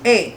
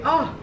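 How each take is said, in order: First: The word is said as a long 'ay' sound. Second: The word is said as a short 'uh' sound. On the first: It is the American way of speaking. The speaker calls it wrong. "Don't say A" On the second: It is the proper way in regular speech. The speaker calls it right. "When you're speaking in regular spoken language, you say ah"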